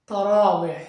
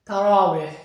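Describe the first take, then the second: Both takes have the same delivery.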